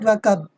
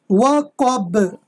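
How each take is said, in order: First: The final b stops plainly without any echo. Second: The final b is released with a slight bouncing echo. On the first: The speaker calls it wrong. "not waqab" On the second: The speaker calls it right. "letter Ba with a by doing a kalkala. How? Waqab"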